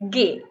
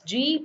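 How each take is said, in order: First: The letter is said with a hard g sound. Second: The letter is said with a soft j sound. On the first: The speaker calls it right. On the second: The speaker calls it wrong. "you will not pronounce the alphabet G as G"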